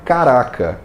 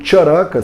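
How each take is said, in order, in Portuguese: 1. A palavra começa com som de 'k'. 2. A palavra começa com som de 'ch'. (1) "ele não é caraca" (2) "O Charaka Samhita"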